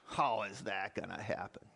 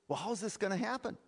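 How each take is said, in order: First: It sounds doubtful and skeptical. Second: It sounds curious and open.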